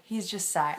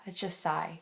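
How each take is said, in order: First: Said in the usual way. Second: Sighing. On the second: Real, not acted.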